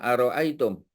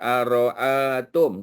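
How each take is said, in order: First: The word is said with a y glide before tum. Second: The word is said without a y glide before tum. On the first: The speaker calls it right. "Kita baca apa? Ara'aitum" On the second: The speaker calls it wrong. "kita tak baca ara'atum"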